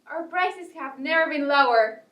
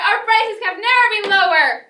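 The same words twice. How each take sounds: First: It is said at a normal volume. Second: It is yelled very loudly.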